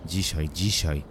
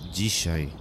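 First: Mildly hissed, irritated echo; understated hiss of grudging assent. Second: Mildly firm demand; a touch of resolve, no shouting. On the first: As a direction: repeat it with a touch of annoyance. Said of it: "syknąłem". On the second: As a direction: insist with understated firmness. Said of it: "powiedziała stanowczo". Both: A narrator's reading.

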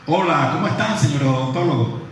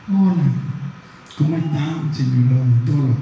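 First: Other tone. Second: Loud, bright greeting to the dentist; louder tone. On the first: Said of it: "cambié el tono de la voz". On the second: Lecturer greets a dentist, loud version. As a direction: hail him loudly, the first way. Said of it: "Dije lo mismo... cambié el tono de la voz". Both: Shown as a demonstration.

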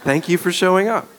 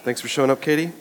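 First: Higher, sincere-sounding thanks; sincere redo. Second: Possibly sarcastic, offhand thanks. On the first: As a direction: say the thanks over, pitched up to undo any sarcasm. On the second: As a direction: thank someone with a dry hint of sarcasm. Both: Real, not acted. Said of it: "Did I sound sarcastic?".

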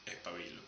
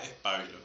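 First: "pabilo" stressed on the BI, very softly; stress on middle syllable. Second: "pábilo" stressed on the A of PA; stress on first syllable. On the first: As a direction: demonstrate "pabilo" as pa-BI-lo, dropping the volume. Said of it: "Si no lleva acento". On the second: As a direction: demonstrate "pábilo" as PA-bi-lo, lower and softer. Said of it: "Si lleva acento en la A". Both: Shown as a demonstration.

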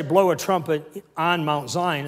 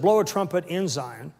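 First: "on Mount Zion" set apart, slower; stress on ON. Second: "in Zion" as the correct wording; stress on IN. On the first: Preacher correcting a misquoted verse, stress on ON. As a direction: lean on "on" as the wrong word. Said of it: "It didn't say". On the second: Preacher giving the verse's true wording, stress on IN. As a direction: lean on "in", quicker and unbroken. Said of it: "It said". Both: Shown as a demonstration.

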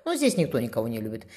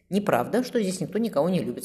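First: Low-key, understated statement; resigned. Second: Higher-pitched, composed contradiction; calm denial. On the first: Sister admitting there is no love here, resigned. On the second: Brother contradicting his resigned sister, calm. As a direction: deny it calmly, voice lifted. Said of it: "спокойно ответил Дайчи". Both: A narrator's reading.

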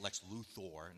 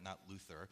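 First: "Lex Luthor" said with the ending "-thor", rhyming with "for"; correcting the name "Luthor" to end in "thor"; right pronunciation. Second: "Luther" said with a plain "-ther" ending, like the reformer; "Luther" given as the mistaken form; wrong pronunciation shown. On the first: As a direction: say "Luthor" as loo-THOR, not loo-ther. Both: Shown as a demonstration. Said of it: "that's how you say it".

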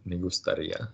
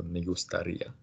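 First: "me gustaría" with stress on the final "ía"; stress on the end. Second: "me gustaría" with the last syllable "ía" stressed; stress on the end. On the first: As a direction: put the weight at the end of "gustaría". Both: Shown as a demonstration. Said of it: "Make sure the emphasis comes at the end of the word".

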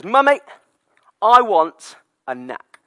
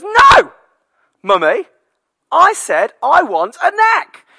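First: Put-on higher, louder, slow toddler demand. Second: Put-on much higher, much louder, slow toddler yell; toddler tantrum shout. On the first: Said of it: "he says". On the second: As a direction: scream the demand like a stroppy toddler. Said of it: "And he goes".

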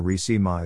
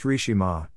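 First: Rishima mispronounced in a reduced form; butchered name pronunciation. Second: Rishima said as the owner pronounces it; correct name pronunciation. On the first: Woman complaining her name gets butchered, mock mispronunciation. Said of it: "butchering it and reducing it to". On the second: Woman stating how her name is pronounced, correct pronunciation. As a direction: say Rishima in full, with a "sh" in the middle. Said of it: "you butchering it and reducing it". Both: Shown as a demonstration.

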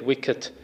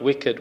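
First: "wicket" ending in a crisp t; corrected word wicket. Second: "wicked" ending in a voiced d; wrong word wicked. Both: Shown as a demonstration. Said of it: "not wicked, wicket".

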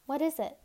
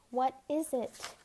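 First: Higher, anxious question; trembling. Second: Slower, with weight on "is"; insistent repeat. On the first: Anya asks about the packet she must swallow, trembling. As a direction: ask it nervously, pitched up. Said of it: "voice trembling". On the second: Anya demands again what the packet holds, insistently. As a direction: press the question, drawing out "is". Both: A narrator's reading.

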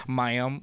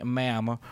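First: Ma'am drawled out as maɪəm in a light southern accent; a rising, drawled southern Ma'am. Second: Ma'am with a short A as in jam. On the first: Joking about other ways to say it, a southern accent Ma'am. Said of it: "a southern accent". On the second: Reading the Queen's etiquette, says Ma'am with a short A. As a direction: say Ma'am to rhyme with jam, clipped. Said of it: "pronounced with a short A as in jam". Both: Shown as a demonstration.

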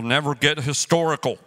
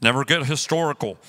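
First: Never get historical, historical clearly stressed. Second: Never get historical repeated firmly; stress on historical. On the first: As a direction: lean on historical, not hysterical. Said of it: "I'm not saying hysterical". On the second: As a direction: hammer historical home. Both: Shown as a demonstration.

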